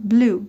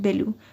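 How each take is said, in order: First: The word is said with an English accent. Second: The word is said with a Persian accent. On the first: The speaker calls it right. "دارم به صورت انگلیسی میگم" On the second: The speaker calls it wrong. "من اینو دیگه فارسی نمیخونم"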